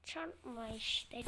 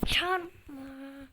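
First: Said in the usual way. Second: "çarpma" repeated louder, exasperated. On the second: Real, not acted. Player repeating the word at the screen, louder and annoyed. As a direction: bark out "çarpma" again with force.

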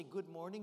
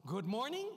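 First: Said in the usual way. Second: Louder greeting rising at the end; loud call. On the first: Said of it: "So I'm gonna say". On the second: Shown as a demonstration. Speaker calling the audience for volume, loud rising greeting. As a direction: call out to prompt the crowd. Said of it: "let me hear the volume".

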